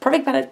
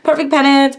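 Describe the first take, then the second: First: It is said quickly, like a tongue twister. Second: It is said at a normal, unhurried pace. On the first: "say it fast" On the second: "say it with me"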